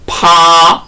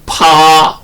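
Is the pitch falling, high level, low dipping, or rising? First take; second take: high level; high level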